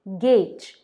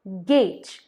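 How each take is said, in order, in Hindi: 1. स्वर 'ay' जैसा सुनाई देता है। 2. स्वर 'ay' जैसा सुनाई देता है।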